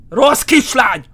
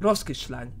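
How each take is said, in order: First: Louder, sharper scolding of a bad girl; scolding shout. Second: Said in the usual way. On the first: Gamer scolding the fleeing ghost girl, loud shout. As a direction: bark it like a cross parent.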